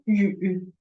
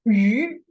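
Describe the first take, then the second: First: It is said with a low dipping third tone. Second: It is said with a rising second tone. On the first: "This no longer"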